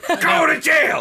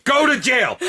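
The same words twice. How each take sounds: First: High shouted mock sentence. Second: High mock order; mock command. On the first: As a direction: yell it like a joke judge. Mock sentencing, repeated louder. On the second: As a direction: sentence them jokingly. Mock sentencing the fans.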